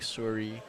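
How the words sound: It is said in a stereotypical Canadian accent.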